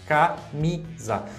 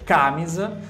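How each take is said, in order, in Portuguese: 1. A sílaba tônica é a do meio. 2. A sílaba tônica é a primeira. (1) "a sílaba tônica está na, na mi" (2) "eu estou colocando a sílaba tônica no K ao invés de colocar no Mi"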